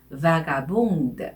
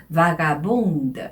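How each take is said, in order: The two takes are said the same way.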